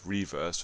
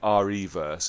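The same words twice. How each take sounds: First: The stress falls on the second syllable. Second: The stress falls on the first syllable. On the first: This is how the word normally reads. The speaker calls it right. "which is how it is how it reads" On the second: This is how the makers say the name. The speaker calls it wrong. "they just kept calling it REverse"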